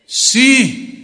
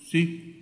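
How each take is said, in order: First: It is said loudly. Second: It is said quietly, barely audible.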